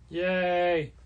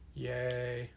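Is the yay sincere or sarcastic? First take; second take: sincere; sarcastic. First: It is said sincerely, as a real cheer. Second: It is said sarcastically, as a mock cheer.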